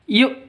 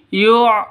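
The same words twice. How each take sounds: First: The consonant is a light glottal stop. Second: The consonant is a deep throaty ain sound. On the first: The speaker calls it right. "Tapi kalau hamzah" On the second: The speaker calls it wrong. "kalau ain seperti ini"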